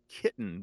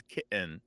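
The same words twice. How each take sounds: First: Said in the usual way. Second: Kitten with a glottal stop in the middle. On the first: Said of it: "it becomes like kitten becomes kitten". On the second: Shown as a demonstration. Host showing the young generation's form, glottal kitten. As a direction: drop the T in kitten to a throat catch. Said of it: "that D sometimes becomes a glottal".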